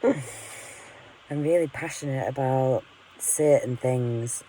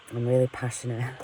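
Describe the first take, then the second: First: Slow, amused repeat through a laugh; self-mocking chuckle, drawn out. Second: Said in the usual way. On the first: Real, not acted. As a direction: laugh at yourself as you say it again, slowly. Repeats line, laughing at herself.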